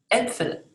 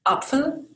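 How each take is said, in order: First: Äpfel with the front eh umlaut. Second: Apfel said with an open ah, higher pitch; plain German a. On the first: Teacher contrasting with Apfel, umlaut eh in Äpfel. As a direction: slide Äpfel forward to eh-pfel. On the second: Teacher contrasting singular and plural, open ah in Apfel. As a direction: say Apfel with a clear ah, no umlaut. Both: Shown as a demonstration. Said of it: "sounds like".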